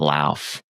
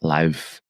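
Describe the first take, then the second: First: It is said with an American pronunciation. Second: It is said with an Icelandic pronunciation. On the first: The speaker calls it wrong. "it's also not Lauf" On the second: The speaker calls it right. "I heard them say it properly"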